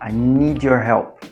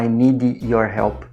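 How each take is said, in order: First: Need runs straight into your without a break. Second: Need ends with an extra vowel, separated from your. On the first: The speaker calls it right. "a gente até conecta" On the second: The speaker calls it wrong. "A gente não fala"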